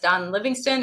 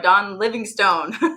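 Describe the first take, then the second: First: The name is said without a Yankee accent. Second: The name is said in a Yankee accent.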